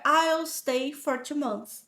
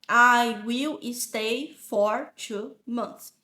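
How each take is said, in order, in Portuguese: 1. Eu e will são falados juntos, numa sílaba só. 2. Eu e will são falados como palavras separadas. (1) "E o will contraído. Então fica" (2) "se tu não conseguir falar assim"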